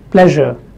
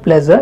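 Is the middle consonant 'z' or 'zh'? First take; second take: zh; z. First: The middle consonant is a soft 'zh' sound. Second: The middle consonant is a buzzing 'z' sound. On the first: The speaker calls it right. "it is pleasure" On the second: The speaker calls it wrong. "they replace it with Z and they say pleasure. It is not pleasure"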